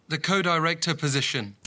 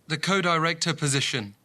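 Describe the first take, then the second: Both takes have the same delivery.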